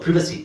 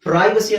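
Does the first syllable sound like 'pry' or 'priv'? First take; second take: priv; pry. First: The first vowel is a short 'ih'. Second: The first vowel is like 'eye'. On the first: "ಅಥವಾ ಪ್ರಿವಸಿ, ಎರಡು pronunciation ಇದೆ" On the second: "ಪ್ರೈವಸಿ ಅಂತ ಹೇಳ್ಬೋದು"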